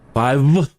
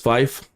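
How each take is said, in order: First: The word ends with a V sound. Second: The word ends with an F sound. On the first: "I don't know why people have a problem with V" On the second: "you should pronounce it as Fife"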